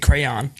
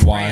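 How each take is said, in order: First: The middle Y sound is clearly pronounced. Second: The middle Y sound is dropped, like cran. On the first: "pronounce like the Y and say crayon" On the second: "I just say crayon. Like the whole middle of the word. doesn't-"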